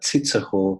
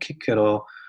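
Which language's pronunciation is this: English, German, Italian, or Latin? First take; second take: German; Latin. First: The name is said with German pronunciation. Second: The name is said with Latin pronunciation. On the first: "in German it's like" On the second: "in Latin, you pronounce like"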